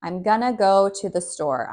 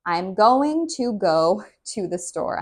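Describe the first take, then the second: First: "gonna" as one quick word; casual "gonna" with no t; reduced gonna. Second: "going to" spelled out carefully; deliberate, full "going to go". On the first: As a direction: swallow "going to" into "gonna". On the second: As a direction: say every sound of "going to". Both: Shown as a demonstration. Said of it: "this is actually going to".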